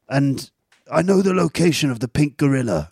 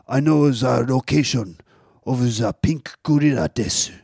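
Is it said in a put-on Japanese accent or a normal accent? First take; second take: normal accent; Japanese accent. First: It is said in a normal English accent. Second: It is said in a put-on Japanese accent.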